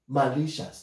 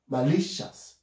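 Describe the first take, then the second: First: The second syllable is said without stress. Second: The second syllable is said with stress. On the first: The speaker calls it wrong. "So I cannot put the stress here. No, it's not allowed. So you cannot say malicious" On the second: The speaker calls it right. "So the L is stressed. That's the second syllable"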